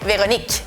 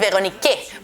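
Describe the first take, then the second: First: The word ends on the k sound. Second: A final e sound follows the k. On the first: The speaker calls it right. "el último sonido que es k" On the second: The speaker calls it wrong. "No vamos a decir Véronique porque no pronunciamos la E final"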